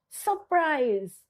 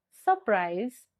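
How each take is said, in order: First: SURPRISE high and drawn out, falling; strongly stressed SURPRISE with swooping intonation; intonated and stressed. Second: SURPRISE in usual pitch, lightly stressed; understated SURPRISE with little emphasis; low stress. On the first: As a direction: push "surprise" up high and stretch it. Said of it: "intonation and stressful". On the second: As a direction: keep "surprise" low and unforced. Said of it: "low stressful". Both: Shown as a demonstration.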